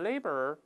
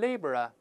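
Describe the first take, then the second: First: It is said in an American accent, with r-coloring. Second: It is said in a British accent, without r-coloring. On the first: "美音中加个卷舌音读成laborer" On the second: "英国人呢读成laborer，laborer 不加卷舌"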